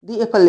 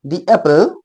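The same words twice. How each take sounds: First: दी एप्पल, "दी" drawn out as dee, slowly; slow teaching model of दी एप्पल; slow "dee apple". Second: दी एप्पल, "दी" said as a long dee; "dee" before apple. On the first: (धीरे से "दी एप्पल") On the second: (दी को लंबा "दी" बोलें) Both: Shown as a demonstration. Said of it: "नहीं, दी एप्पल".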